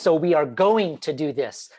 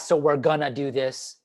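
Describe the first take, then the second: First: Each word is said fully as 'we are going to'. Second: The words are reduced to 'we're gonna'. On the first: The speaker calls it right. "We need to enunciate our words" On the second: The speaker calls it wrong. "we want to stay away from"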